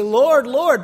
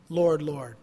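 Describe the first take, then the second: First: Louder calling Lord, Lord; imitated pleading cry; mock loud plea. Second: Said in the usual way. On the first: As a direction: call out Lord, Lord like a pleading crowd. Quoting false believers calling out.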